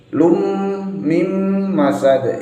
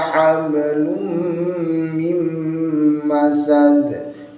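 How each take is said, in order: First: The m sounds have no held nasal hum. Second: The m sounds carry a held nasal hum. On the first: The speaker calls it wrong. "ini tanpa dengung-dengungnya hilang semua. Nah, ini tidak tepat" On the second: The speaker calls it right. "Ini perlu ditekankan karena dengungnya sering terlewatkan"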